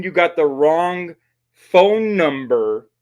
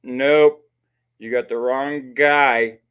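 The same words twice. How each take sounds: First: "phone number" said slow and higher; stress on phone number. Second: "guy" drawn out and falling; slow "you got the wrong guy", weight on "guy"; stress on guy. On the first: Shown as a demonstration. Streamer showing what Plymouth should have said, raised and slow. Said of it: "Instead of saying". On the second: Retold or imitated. Streamer mocking Plymouth's odd denial, slow stress on guy. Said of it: "And Plymouth goes".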